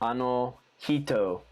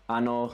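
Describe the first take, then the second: First: It is said with an American accent. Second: It is said with a native Japanese accent. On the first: The speaker calls it wrong. "That's the really American one" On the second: The speaker calls it right. "here's the correct one, just with how it probably a native would pronounce it"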